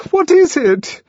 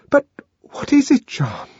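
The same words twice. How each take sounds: First: High, loud frightened cry; almost scream the question; near scream. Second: High, voiced stage whisper; small high frightened voice. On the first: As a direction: panicky high-pitched demand. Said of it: "she almost screamed". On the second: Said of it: "she whispered". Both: A narrator's reading.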